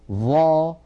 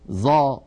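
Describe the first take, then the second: First: The consonant is made with the tongue tip between the teeth. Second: The consonant sounds like a buzzing z. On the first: The speaker calls it right. "لابد من أن نضع طرف لساننا على أطراف أسناننا العليا" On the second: The speaker calls it wrong. "اعتادت أن تغير هذا الصوت الفصيح إلى صوت"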